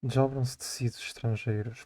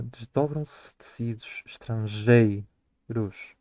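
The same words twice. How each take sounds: First: The line in its first reading; poem recitation. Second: 'desdobram-se tecidos estrangeiros' drawn out slowly to count syllables; slowed-down scansion of the verse. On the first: Acted. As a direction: read 'Desdobram-se tecidos estrangeiros' as a flowing line of verse. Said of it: "Ou seja, desdobram-se tecidos estrangeiros". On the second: Shown as a demonstration. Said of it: "nós precisamos de ir à última sílaba tónica".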